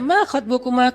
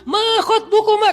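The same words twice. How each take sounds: First: It is said gently and softly. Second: It is said harshly, as to a man.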